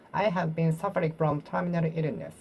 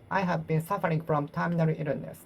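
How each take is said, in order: Both takes have the same delivery.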